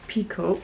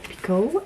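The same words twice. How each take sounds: First: "Picoult" said as "PEE-koh", falling at the end; first try at the name. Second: "Picoult" said as "pee-KOH", rising at the end; corrected name pronunciation. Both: Shown as a demonstration. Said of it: "I think that's how she says her name".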